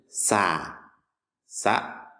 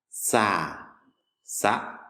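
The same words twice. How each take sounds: The two takes are said the same way.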